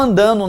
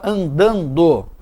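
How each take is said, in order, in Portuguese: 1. O d da sílaba final é omitido. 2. O d da sílaba final é claramente pronunciado. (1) "Não" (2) "Coloque desta maneira"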